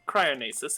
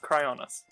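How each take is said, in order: First: The word ends with an extra -esis syllable. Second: The word ends with a short -nis syllable. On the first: The speaker calls it wrong. "it's not cryonesis" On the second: The speaker calls it right. "it's cryonis"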